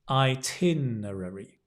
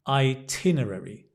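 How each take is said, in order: The two takes are said the same way.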